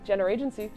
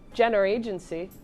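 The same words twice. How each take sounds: First: The word is said quickly. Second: The word is said at a normal pace.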